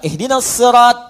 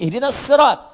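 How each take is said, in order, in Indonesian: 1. Huruf s di sirat itu tebal. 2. Huruf s di sirat itu tipis.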